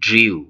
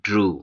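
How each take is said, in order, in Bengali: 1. স্বরধ্বনির আগে একটি 'y' glide আসে। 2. স্বরধ্বনিটি সাধারণ 'oo' ধ্বনি। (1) "এর ভুল উচ্চারণ করে থাকি ড্রিউ" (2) "এর সঠিক উচ্চারণ হচ্ছে ড্রু"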